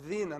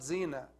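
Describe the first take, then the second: First: It begins with a voiced th sound. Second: It begins with a buzzing z sound. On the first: The speaker calls it right. "letter of dhal" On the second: The speaker calls it wrong. "not zina"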